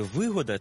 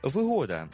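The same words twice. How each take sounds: First: Вигода with the first syllable ВИ stressed. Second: Вигода with the middle syllable ГО stressed; stress on second syllable. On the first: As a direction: put the beat on ВИ in вигода. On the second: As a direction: put the beat on ГО in вигода. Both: Shown as a demonstration. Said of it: "Як правильно казати, вигода чи вигода".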